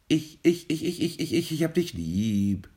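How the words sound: The last word is low in pitch. The bird is old. "Tief am Ende wäre ein altes Individuum"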